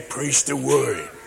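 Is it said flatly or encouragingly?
flatly. It is said flatly, without encouragement.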